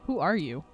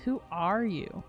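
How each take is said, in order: First: It is said in a plain, normal voice. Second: It is said in a mocking, obnoxious voice.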